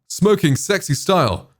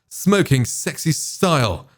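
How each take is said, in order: First: The S sounds are somewhat reduced here. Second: The S sounds are at their strongest here.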